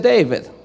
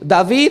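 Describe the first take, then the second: First: The name has an English pronunciation. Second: The name has a Spanish pronunciation.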